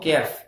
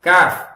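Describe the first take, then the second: First: The vowel after the k is fronted, like 'e'. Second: The vowel after the k is broad, like 'aa'. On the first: The speaker calls it wrong. "No no no no" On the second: The speaker calls it right. "காஃப் காஃப் படிக்கணும்"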